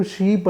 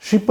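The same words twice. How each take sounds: First: "షీప్" with a drawn-out ee; long vowel. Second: "షిప్" with a short i; short vowel. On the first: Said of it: "షీప్ అంటే వేరు". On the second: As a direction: keep the vowel in "షిప్" brief. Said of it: "షిప్ అంటే వేరు, షీప్ అంటే వేరు". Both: Shown as a demonstration.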